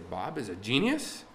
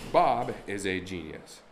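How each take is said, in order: First: It is said with sarcastic, questioning disbelief. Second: It is said as a plain, flat statement.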